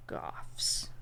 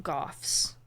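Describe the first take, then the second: First: Whispered Goths again. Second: Whispered Goths. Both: Real, not acted. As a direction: breathe the word Goths. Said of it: "whispered answer".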